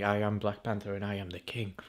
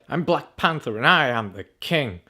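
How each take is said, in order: First: It is said in a flat, monotone voice. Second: It is said in a lively, expressive voice. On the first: The character shows no emotion. The speaker calls it wrong. "He's like the most monotone guy" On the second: The character shows emotion. The speaker calls it right. "everyone else at least expresses emotion with their voice"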